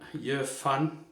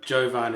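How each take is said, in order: First: The middle consonant is an F sound. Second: The middle consonant is a V sound. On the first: It is read the German way. "V could be an F, because in, in German it is" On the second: It is read the way people in the UK say it. "Jovan is how you say it in the U K"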